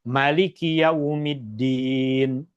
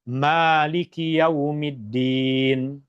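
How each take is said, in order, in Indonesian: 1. Vokal setelah M pendek. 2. Vokal setelah M panjang. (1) "dibaca dengan baris fathah tanpa huruf alif. Dibaca pendek" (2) "dengan membacanya dua harakat"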